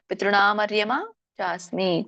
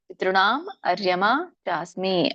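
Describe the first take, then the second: First: The first two words run together as one. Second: The first two words are said separately. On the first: "ಕೂಡಿ ಹೇಳ್ಬೋದು" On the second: "ಬಿಡಿಸಿ ಹೇಳ್ಬೋದು"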